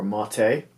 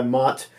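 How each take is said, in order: First: "Motte" with an added second syllable; alternative pronunciation. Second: "Mott" as one syllable; first pronunciation attempt. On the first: Host unsure of a player's surname, "Motte" in two syllables. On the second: Host trying a player's surname, "Mott" as one syllable. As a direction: say "Mott" short, without a second syllable. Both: Shown as a demonstration. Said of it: "or Motte".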